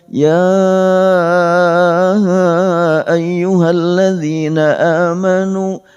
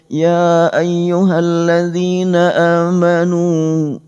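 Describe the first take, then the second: First: The call is drawn out and lengthened. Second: The call is said at normal length.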